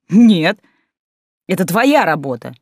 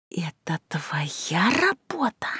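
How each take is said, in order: First: Sharp retort. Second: Slow angry hiss; hissing whisper. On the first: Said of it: "Отрезала я". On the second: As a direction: hiss it slowly through the teeth. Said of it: "зашипела". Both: A narrator's reading.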